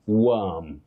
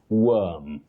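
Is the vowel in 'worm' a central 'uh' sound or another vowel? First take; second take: central; central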